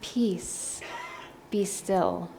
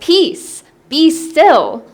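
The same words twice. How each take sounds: First: It is said calmly and softly. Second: It is said forcefully and loudly.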